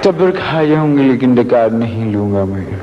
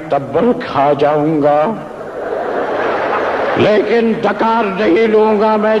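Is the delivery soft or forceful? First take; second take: soft; forceful. First: It is said softly and gently. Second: It is said forcefully and loudly.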